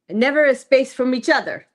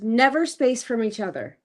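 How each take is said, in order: First: It is said in a put-on broken-English voice. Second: It is said in the speaker's normal voice.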